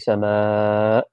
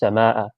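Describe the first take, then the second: First: A vowel is drawn out long. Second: The vowels are kept short. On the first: This is how it is recited in the Quran. "with a little one of these" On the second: This is the plain word in ordinary Arabic. "Without without the mud on it"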